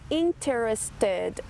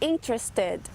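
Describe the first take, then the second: First: The vowel before the R is fully pronounced. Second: The vowel before the R is dropped. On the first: "ao invés de falar interested" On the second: "normalmente essa vogal some"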